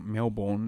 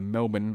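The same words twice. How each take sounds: First: Melbourne is said with an American pronunciation. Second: Melbourne is said with an Australian pronunciation.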